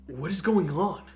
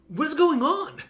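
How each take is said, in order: First: It is said at a normal, calm pitch. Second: It is said at a raised, higher pitch.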